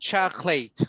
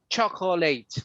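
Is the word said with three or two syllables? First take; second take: two; three. First: The middle syllable is dropped entirely. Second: The middle syllable is fully pronounced. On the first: The speaker calls it right. "It's just chocolate" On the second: The speaker calls it wrong. "A lot of people will say chocolate"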